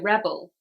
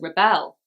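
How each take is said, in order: First: The stress is on the first syllable. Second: The stress is on the second syllable. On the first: It is a noun naming a person. "first syllable for a noun" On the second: It is a verb naming an action. "second syllable for a verb"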